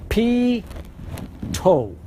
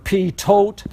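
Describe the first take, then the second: First: The word ends with a vowel sound. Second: The word ends with a t sound. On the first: The speaker calls it right. "the way you pronounce it, use these two words" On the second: The speaker calls it wrong. "You would think it would be Pitot or P-tote. It's not"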